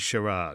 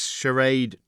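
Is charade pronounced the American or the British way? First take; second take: British; American. First: It is pronounced the British way. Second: It is pronounced the American way.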